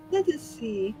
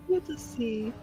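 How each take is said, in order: Both takes have the same delivery.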